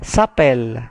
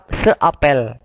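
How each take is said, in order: First: The vowel of 'se' is dropped and merged. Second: The vowel of 'se' is fully pronounced.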